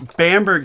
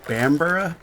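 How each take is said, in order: First: The name ends with a short 'berg' sound. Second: The name ends with a 'borough' sound. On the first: This is how the spelling looks. "is what it looks like to me" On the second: This is the believed British pronunciation. "I believe it would be"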